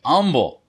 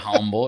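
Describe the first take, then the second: First: The word starts without an h sound. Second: The word starts with a sounded h. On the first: The speaker calls it right. "It's humble. Fuck the H" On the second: The speaker calls it wrong. "It's not humble"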